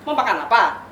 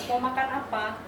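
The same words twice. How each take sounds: First: Louder, sharp edge on "Mau makan apa?"; harsh tone. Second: Said in the usual way. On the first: Shown as a demonstration. Pastor showing a harsh tone to the couple, sharp and loud. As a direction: snap the question like an irritated spouse. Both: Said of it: "Sama, tapi nadanya berbeda".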